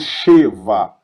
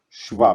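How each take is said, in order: First: The first vowel is a full e sound. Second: The first vowel is barely heard after sh. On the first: The speaker calls it wrong. "Eu não falo Sheva" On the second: The speaker calls it right. "pronuncio praticamente o som do S H"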